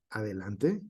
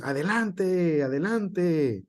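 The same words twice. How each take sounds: First: "Adelante" said softly as a question, rising at the end; asking tone. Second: "Adelante, adelante" higher, slow, each with a firm falling tune; exclaiming. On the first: Teacher showing the class a question, softer with a rising tune. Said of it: "estamos preguntando y decimos". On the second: Teacher showing the class an exclamation, higher and slow. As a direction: call it out as an exclamation, slowly. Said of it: "cuando le ponemos la exclamación, decimos". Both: Shown as a demonstration.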